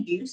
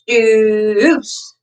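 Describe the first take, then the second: First: The vowel is short and clipped. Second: The vowel is held long. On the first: The speaker calls it wrong. "I don't say juice" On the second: The speaker calls it right. "I say juice when I do this"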